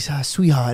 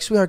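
First: It is said in a leering, sleazy tone. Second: It is said in a warm, courteous tone. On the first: It is a disrespectful, creepy come-on. The speaker calls it wrong. "But if he was by himself with a napkin tucked in his ears, like" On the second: It is a kind, gentlemanly request. The speaker calls it right. "It's like a nice thing"

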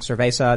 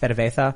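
First: The z is said like an s. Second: The z is said like a th. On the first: "instead of saying" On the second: "they have the Catalan lisp"

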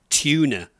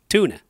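First: It is said in a British accent. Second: It is said in an American accent. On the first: "I would say tuna" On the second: "But over here, tuna"

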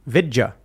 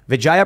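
First: The name is said as Vidya. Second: The name is said as Vijaya. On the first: The speaker calls it right. "pronounced her name Vidya" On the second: The speaker calls it wrong. "I apologize for mispronouncing your name"

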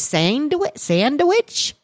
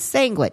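First: The middle of the word has a d sound. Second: The middle of the word has a g sound. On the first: The speaker calls it right. "it's spelled with a D, not a G?" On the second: The speaker calls it wrong. "I thought it was sandwich"

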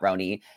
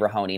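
First: The H is dropped, giving two syllables. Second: The H is sounded, giving three syllables. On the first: "not Roni" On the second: "I say Rahoni"

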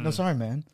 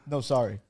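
First: It sounds warm and friendly. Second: It sounds curt and rude.

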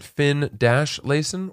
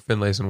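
First: The name is split into two separate parts. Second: The name runs together as one word. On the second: "Finlayson one word"

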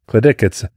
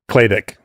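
First: The stress is on the second syllable. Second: The stress is on the first syllable. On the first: The speaker calls it right. "I think I got it right this time" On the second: The speaker calls it wrong. "How do you say it wrong?"

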